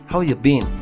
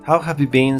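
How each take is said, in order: First: The words are blended together casually. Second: Every word is said fully and clearly.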